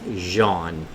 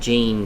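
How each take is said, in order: First: The name is said the French way. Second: The name is said the English way. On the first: This is how it is said where the singer is from. "I think it's Jean, like Jean Paul Gaultier" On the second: This is how it is said locally. "we pronounce it Jean here"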